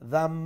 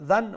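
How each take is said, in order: First: The syllable ends with a nasalized m sound. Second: The syllable ends with a plain n sound. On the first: "মিমে পরিণত করিয়া ... গুন্নার সহিত দাম" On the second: "দাল নুন জবর দান"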